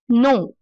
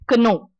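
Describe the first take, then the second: First: The word starts with an n sound. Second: The word starts with a k sound. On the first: The speaker calls it right. "take the silent letter out" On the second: The speaker calls it wrong. "not Kno"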